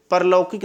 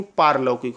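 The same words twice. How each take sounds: First: परलौकिक with a short first vowel; wrong pronunciation. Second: पारलौकिक with a long first aa; correct pronunciation. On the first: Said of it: "परलौकिक नहीं". (परलौकिक में छोटा अ, गलत) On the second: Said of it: "पारलौकिक होता है". (पारलौकिक में लंबा आ, सही) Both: Shown as a demonstration.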